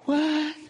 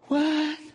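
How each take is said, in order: First: It sounds surprised. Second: It sounds surprised.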